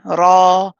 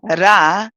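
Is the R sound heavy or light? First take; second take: heavy; light. First: The r sound is heavy and full. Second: The r sound is light and thin. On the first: The speaker calls it right. "you're saying Ra. Notice my jaw dropping" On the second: The speaker calls it wrong. "instead of saying Ra"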